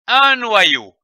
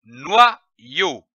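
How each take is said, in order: First: "Un noyau" higher and run together; "Un noyau" without breaks, starting high; whole word joined. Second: "noyau" slowly split in two with a pause; "noyau" in detached reading-lesson syllables. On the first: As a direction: blend "noyau" into one connected word. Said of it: "le mot noyau". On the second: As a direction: sound out "noyau" as noi, then yau. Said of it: "L'association de ces deux syllabes donne". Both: Shown as a demonstration.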